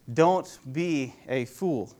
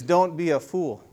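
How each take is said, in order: First: "Don't be a fool" very slowly, word by word; slow emphatic repeat. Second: Said in the usual way. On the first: Shown as a demonstration. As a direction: spell out each word deliberately, a little softer.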